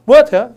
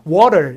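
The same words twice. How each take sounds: First: It has a hard t and no r. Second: It has a soft, flapped t sound. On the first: "영국식으로 하면" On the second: "미국식으로 하면"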